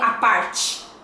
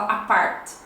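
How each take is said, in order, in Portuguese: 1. O T é suavizado num som de 'ch'. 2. O T continua um som de T nítido e simples. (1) "eu falaria a parte, né, chiado" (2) "lá eles já vão falar a part, já não uh, vão chiar este T"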